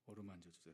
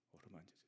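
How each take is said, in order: First: Said in the usual way. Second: Softer, tender plea; soft hush. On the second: Acted. Pastor to weary flock, tender and soft. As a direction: let it fall soft like a caress.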